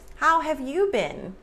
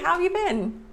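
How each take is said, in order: First: Each word is pronounced fully and separately. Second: The words are reduced and run together. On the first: The speaker calls it wrong. "it feels a little jarring" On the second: The speaker calls it right. "It feels nice"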